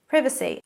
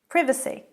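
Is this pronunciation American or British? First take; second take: British; British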